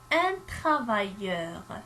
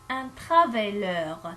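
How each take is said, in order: First: The middle consonant is a Y-like glide sound. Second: The middle consonant is a plain L sound. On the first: It is spelled with a double L. The speaker calls it right. "J'écris deux L" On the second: It is spelled with a single L. The speaker calls it wrong. "Si j'écris une seule, je vais le prononcer"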